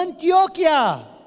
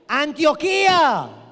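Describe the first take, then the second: First: The stress falls on the 'o' before it. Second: The stress falls on the 'i' near the end. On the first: It names the Colombian region. The speaker calls it wrong. "no Antioquia" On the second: It names the biblical city. The speaker calls it right.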